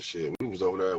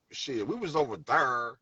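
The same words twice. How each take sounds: First: Low, casual "there", not exaggerated; natural local THERE. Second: "there" stretched slow into "thurr"; exaggerated THERE. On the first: Showing how locals really talk, "there" said low and casual. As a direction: toss off "there" low and easy. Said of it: "That's how we talk". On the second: Showing what nobody really says, "there" drawn out as "thurr". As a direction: drag out "there" with a heavy r, slowly. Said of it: "I've never heard anybody say". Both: Shown as a demonstration.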